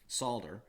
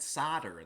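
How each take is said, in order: First: The word is said in a non-American accent. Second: The word is said in an American accent.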